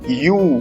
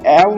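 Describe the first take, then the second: First: The word sounds like 'yoo' with a y-sound. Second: The word sounds like 'ev' with a v-sound. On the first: The speaker calls it right. "E W E को लिखते हैं हम यू" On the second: The speaker calls it wrong. "इसको एव मत बोलना बेटा, वो बिल्कुल गलत होगा"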